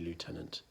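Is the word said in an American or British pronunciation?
American. It is said with an American pronunciation. The speaker calls it wrong. "in the British military, never say lieutenant"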